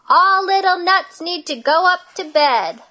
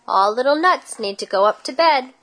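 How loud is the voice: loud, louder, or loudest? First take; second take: loudest; loud. First: The voice is biggest and loudest. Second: The voice is big and loud. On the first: "in her biggest voice" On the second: "in her big voice"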